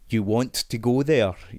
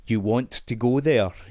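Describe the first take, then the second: First: The t sounds are clearly pronounced. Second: The t sounds are clearly pronounced.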